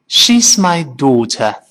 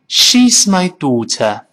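First: It is said in a British accent, mouth opening wide. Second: The same.

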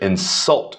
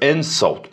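First: The stress is on the last syllable. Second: The stress is on the first syllable. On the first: It names the act of offending, as a verb. "重音放在最后边的那个音节" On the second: It names an offensive remark, as a noun. "注意这insult 是名词，所以重音放在开头"

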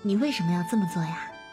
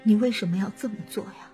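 First: It sounds warm, relaxed and smiling. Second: It sounds weak, trembling and sorrowful.

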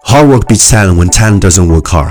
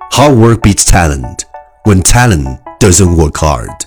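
First: The sentence is said very fast in one breath. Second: The sentence is said at a normal, steady pace. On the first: "一口气最快语速" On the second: "句子跟我读"

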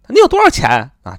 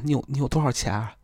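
First: It is said in a brazen, shameless way. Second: It is said in a shy, timid way. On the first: The asker feels entitled to the money. "一种是没皮没脸" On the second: The asker is embarrassed to ask for money. "非常害羞的人"

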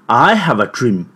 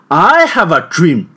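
First: It is said at a medium pitch. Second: It is said at a high pitch.

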